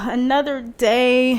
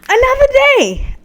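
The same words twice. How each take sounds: First: It sounds weary and full of dread. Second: It sounds grateful and upbeat.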